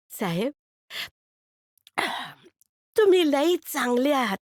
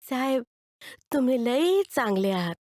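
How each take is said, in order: First: Put-on high kid's voice, stress on तुम्ही; a street boy touched by kindness; grateful boy. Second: Put-on the kid saying it once more; grateful boy again. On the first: Boy telling the man he is very good, high and grateful. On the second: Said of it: "ते परत पोर बोललं".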